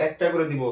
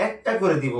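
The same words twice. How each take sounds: The two takes are said the same way.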